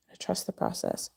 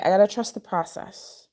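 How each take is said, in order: First: Unvoiced whisper to self; whispered mantra. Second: Said in the usual way. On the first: Real, not acted.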